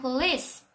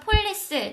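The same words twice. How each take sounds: First: The word is said with two syllables. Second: The word is said with three syllables. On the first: The speaker calls it right. "영어로는 police, 이음절이에요" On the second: The speaker calls it wrong. "저희는 이제 생글 삼음절로 읽을 수 있잖아요"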